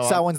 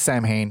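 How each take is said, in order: First: The name is said the traditional way. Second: The name is said the spelled-out way. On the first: The speaker calls it right. "Samhain's the proper pronunciation" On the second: The speaker calls it wrong. "but you read it as Samhain"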